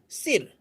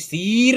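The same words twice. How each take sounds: First: The vowel is clipped short. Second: The vowel is drawn out long. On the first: The speaker calls it right. "छोटी ई को आप एकदम जल्दी से बोल देते हैं" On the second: The speaker calls it wrong. "कोई सिर नहीं बोलता है"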